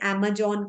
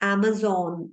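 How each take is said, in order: First: The middle consonant is a 'j' sound. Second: The middle consonant is a 'z' sound. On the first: The speaker calls it wrong. "लोग इसे Amazon कहते हैं" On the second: The speaker calls it right. "ज sound नहीं है ज में, it's Amazon"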